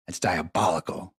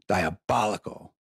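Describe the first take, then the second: First: Said in the usual way. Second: Slow, savoured Diabolical; drawn-out diabolical. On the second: Real, not acted. Stoned host marvelling at the reporter's trick, slow savouring. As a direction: stretch Diabolical out, relishing it.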